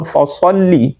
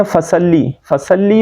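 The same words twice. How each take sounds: First: "فصلی" slower with thick s; heavy saad. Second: "فصلی" quick with light s; flat, short vowels in "فصلی"; thin seen mistake. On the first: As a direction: round out the vowels after the s in "فصلی". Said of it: "ان دونوں میں". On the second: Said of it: "ہم پڑھتے ہیں". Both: Shown as a demonstration.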